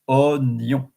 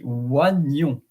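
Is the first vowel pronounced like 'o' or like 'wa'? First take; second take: o; wa. First: The first vowel sounds like plain 'o'. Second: The first vowel sounds like 'wa'. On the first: The speaker calls it right. "this word is pronounced onion. So you don't pronounce the I" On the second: The speaker calls it wrong. "if I have to pronounce it uh, without knowing it, it will be oignon"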